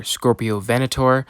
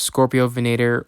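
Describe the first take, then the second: First: "Venator" stressed on VEN, ending in a full "-tor"; VEN-uh-tor pronunciation. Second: "Venator" with a long "ay", ending in "-ter"; VEN-AY-ter pronunciation. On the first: Reviewer offers viewers the other option, "Venator" said VEN-uh-tor. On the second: Reviewer offers viewers one option, "Venator" said veh-NAY-ter. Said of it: "pronounce it as Scorpio Venator or". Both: Shown as a demonstration.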